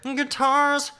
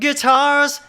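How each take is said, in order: First: The word is said with a nasal quality. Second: The word is said with a full chesty tone. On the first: "it's got that nasal quality to it" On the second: "rather than"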